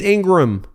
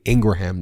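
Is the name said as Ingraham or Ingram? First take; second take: Ingram; Ingraham. First: The name is said as Ingram. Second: The name is said as Ingraham. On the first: The speaker calls it wrong. "you may also be saying, it's Ingram" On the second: The speaker calls it right. "their last name is actually Ingraham. That's why I pronounce it that way"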